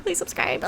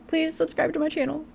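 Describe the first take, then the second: First: High, feeble, playful; weary old voice. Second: Said in the usual way. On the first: Pretend. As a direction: beg like a tired old woman. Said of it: "My old bones out here". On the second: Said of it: "I'm getting weary".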